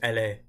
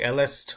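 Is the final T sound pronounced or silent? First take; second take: silent; pronounced. First: The final T is silent. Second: The final T is pronounced. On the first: The speaker calls it right. "it's just elle est" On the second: The speaker calls it wrong. "I used to say elle est all the time"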